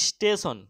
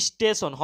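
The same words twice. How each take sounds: Both takes have the same delivery.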